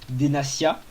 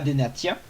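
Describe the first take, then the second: First: The consonant before the ending is an s sound. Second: The consonant before the ending is a t sound. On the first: The speaker calls it right. "c'est bien Denacia" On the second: The speaker calls it wrong. "et pas Denatia"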